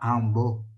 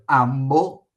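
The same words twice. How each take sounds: First: The nasal before the b sounds like n. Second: The nasal before the b sounds like m. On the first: This is the Venetian form. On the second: This is the Italian form.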